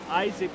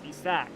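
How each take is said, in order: First: The name has the usual English pronunciation. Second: The name has a foreign, non-English pronunciation.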